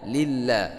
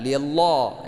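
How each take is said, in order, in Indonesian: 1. Huruf L dibaca tipis. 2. Huruf L dibaca tebal. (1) "Kalau di belakangnya baris kasrah, maka dibaca tipis" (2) "bukan lillah ya"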